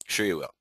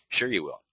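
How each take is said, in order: First: Quieter echo of the sarcasm; dry muttered repeat; sarcastic. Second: Dry, quiet sarcastic aside; deadpan disbelief. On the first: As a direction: repeat it even drier, trailing off. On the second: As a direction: roll your eyes as you say it. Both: Acted.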